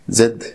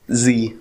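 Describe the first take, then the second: First: The letter is said as zed. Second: The letter is said as zee. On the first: This is the British form. "زد هي البريتش انجلش" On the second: This is the American form. "زي هي الامريكان انجلش"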